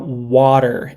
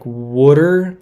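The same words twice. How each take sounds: First: Said in the usual way. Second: Imitated Southern "wooder"; Southern pronunciation. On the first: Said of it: "it didn't come out water". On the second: Shown as a demonstration. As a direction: say "wooder" to imitate a Georgia drawl on water. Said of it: "It came out like wooder".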